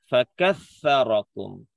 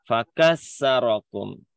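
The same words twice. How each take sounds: First: The middle consonant is a soft 'th' sound. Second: The middle consonant is a plain 's' sound. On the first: The speaker calls it right. "seharusnya tulisannya fakassarakum pakai sa" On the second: The speaker calls it wrong. "tapi dibacanya pakai sin"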